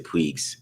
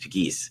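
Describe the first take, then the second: First: The name is said like 'Puigs'. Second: The name is said like 'Pegues'. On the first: The speaker calls it wrong. "I say Puigs" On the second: The speaker calls it right. "but it's Pegues"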